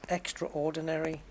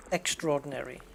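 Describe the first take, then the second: First: "extraordinary" as extra-ORdinary, in two parts; full pronunciation. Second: "extraordinary" run together as ex-TROR-dinary; merged pronunciation. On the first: Host showing two ways, "extraordinary" as extra-ordinary in full. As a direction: keep the a before OR in "extraordinary". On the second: Host showing the second way, "extraordinary" merged as ex-TROR-dinary. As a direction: drop the a in "extraordinary": ex-TRORdinary. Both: Shown as a demonstration. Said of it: "there's two ways, isn't there?".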